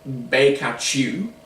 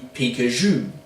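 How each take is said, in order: First: The name is said in a Cantonese-style pronunciation. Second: The name is said in a Mandarin-style pronunciation. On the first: This is the name fans currently use. "currently their pronunciation is um, somewhere along the lines of" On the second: This is the name the planned change would bring in. "but would be changing to"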